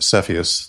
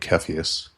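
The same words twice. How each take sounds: First: The name starts with a soft S sound. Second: The name starts with a hard K sound.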